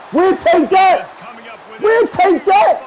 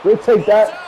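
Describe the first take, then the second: First: Gloating shout. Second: Said in the usual way. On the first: Real, not acted. Gloating after a turnover.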